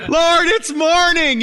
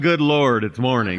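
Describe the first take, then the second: First: It is said cheerfully, full of energy. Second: It is said groggily, with low energy.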